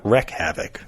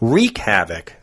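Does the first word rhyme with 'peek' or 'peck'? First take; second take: peck; peek. First: The first word has a short 'e' vowel. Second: The first word has a long 'ee' vowel. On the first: The speaker calls it wrong. "not wreck havoc" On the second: The speaker calls it right.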